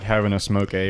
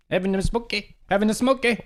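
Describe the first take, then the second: First: Said in the usual way. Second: High, run-together Canadian "Having a smoke, eh?"; thick Canadian accent. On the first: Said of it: "It didn't even sound like". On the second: Shown as a demonstration. Showing how the Canadian really said it, high run-together Canadian accent. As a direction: slur the words together, pitch way up, Canadian. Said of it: "It was just like".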